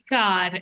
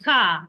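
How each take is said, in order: First: The final R sound is pronounced. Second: The final R sound is dropped. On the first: The speaker calls it wrong. "not car" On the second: The speaker calls it right. "drop the R. So it's like car"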